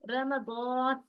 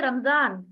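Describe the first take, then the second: First: रमज़ान slowly as "ra-ma-dawn", heavy d and long rounded vowel; correct Arabic pronunciation. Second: रमजान quickly as "ram-zaan", with a light z; Urdu pronunciation. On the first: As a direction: recite रमज़ान in three syllables, stretching a thick "dawn". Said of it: "सही क्या है इसका pronunciation". (रमज़ान को "र-म-दॉऽन" मोटा, खींचकर पढ़ें) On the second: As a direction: say रमजान the everyday Urdu way, two syllables. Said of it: "Urdu में क्या पढ़ते हैं". (रमजान को उर्दू की तरह "ज़" से बोलें) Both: Shown as a demonstration.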